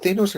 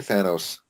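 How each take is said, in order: First: Thanos with a long A, THAY-nos. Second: Thanos with a short A, THAN-os. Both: Shown as a demonstration. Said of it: "Is it Thanos or Thanos".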